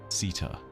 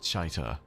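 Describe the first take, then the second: First: The name begins with a plain 's' sound. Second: The name begins with a 'sh' sound. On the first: This is how the name is first heard in the game. The speaker calls it right. "the so-called worm mother" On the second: This was an earlier guess at the name. The speaker calls it wrong. "not Chaita, as I previously pronounced it"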